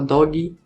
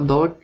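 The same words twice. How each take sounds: First: The word ends with an added ee vowel. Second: The word ends on the final consonant. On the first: It refers to a little dog. "tá falando cachorrinho" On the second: It refers to a dog. "tá falando cachorro"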